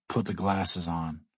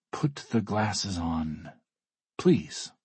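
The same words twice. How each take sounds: First: Curt order, said low and measured; understated order. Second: Slow request, with a lifted "please"; grudgingly polite correction; self-correcting. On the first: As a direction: give a slow, low-key command. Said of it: "he orders me". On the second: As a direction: reword the order, tacking on a pointed please. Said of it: "Todd corrects himself". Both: A narrator's reading.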